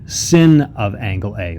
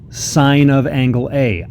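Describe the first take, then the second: First: The first word rhymes with fin. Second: The first word rhymes with fine. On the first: The speaker calls it wrong. "I know it looks like sin of angle A" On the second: The speaker calls it right. "we pronounce it sine of angle A"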